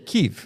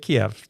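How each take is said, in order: First: The name is said in the Ukrainian way. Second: The name is said in the Russian way. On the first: It follows the local people's own pronunciation. The speaker calls it right. "which is the way the the Ukrainians would say it" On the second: It follows the pronunciation imposed by Russia. The speaker calls it wrong. "don't say Kiev. That's that's offensive"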